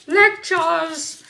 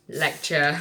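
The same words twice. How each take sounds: First: High, loud put-on cry; mock exclamation. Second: Said in the usual way. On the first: Reader sending up own lecturing, high mock exclamation. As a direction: burst out in a playful high voice.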